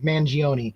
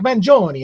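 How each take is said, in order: First: The name is said in an anglicized way. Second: The name is said in an Italian way. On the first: The speaker calls it wrong. "to have an extra pronunciation on it" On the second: The speaker calls it right. "like an Italian"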